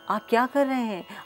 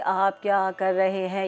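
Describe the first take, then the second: First: It is said with varied, expressive pitch. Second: It is said flatly, like a robot.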